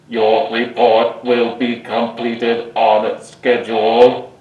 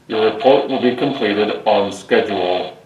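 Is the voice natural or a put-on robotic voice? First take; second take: robotic; natural. First: It is spoken in a put-on robotic Dalek voice. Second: It is spoken in a natural, undisguised voice. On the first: "with my voice disguised to talk like a Dalek" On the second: "with my normal voice"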